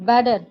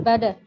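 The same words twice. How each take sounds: The two takes are said the same way.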